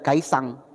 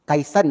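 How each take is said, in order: First: The name ends with an ng sound. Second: The name ends with a plain n sound. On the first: The speaker calls it wrong. "bukan Kaisang" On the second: The speaker calls it right. "Kaisan ya Bapak Ibu ya"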